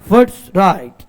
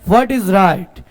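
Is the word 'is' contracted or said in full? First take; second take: contracted; full. First: The word 'is' is contracted onto 'what'. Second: The word 'is' is said fully and separately.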